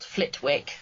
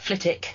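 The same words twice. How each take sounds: First: The W in the middle is sounded. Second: The W in the middle is silent. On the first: This is how the name is written. "It is spelt Flitwick" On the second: This is how the name is really said. "it's pronounced Flitwick with a sort of silent W"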